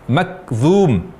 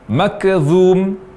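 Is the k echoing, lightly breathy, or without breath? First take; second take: without breath; echoing. First: The k is released with no breath at all. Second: The k has an echoing bounce after it. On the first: "tanpa hamas" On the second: "terdengar berbunyi qalqalah atau suara pantulan"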